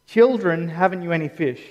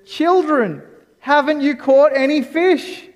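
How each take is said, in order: First: Tender, relational. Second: High, loud shout to the fishermen; calling out loud. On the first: Shown as a demonstration. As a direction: say it as to treasured kids. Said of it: "It's actually deeply relational". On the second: Retold or imitated. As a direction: call across the water to the boat. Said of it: "yelling out".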